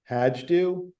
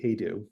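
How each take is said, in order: First: The name is said the usual American way. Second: The name is said the family's own way. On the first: This is how most people say it. The speaker calls it wrong. "most people pronounce it Hajdu" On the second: This is how the family says it. The speaker calls it right. "it is actually Hejdu"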